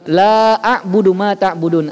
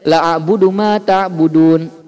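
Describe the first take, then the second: First: The vowel of 'la' is held long. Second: The vowel of 'la' is cut short. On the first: I do not worship what you worship. The speaker calls it right. "kalau Bapak bacanya la-nya panjang" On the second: The meaning is turned completely around. The speaker calls it wrong. "kalau kita bacanya pendek"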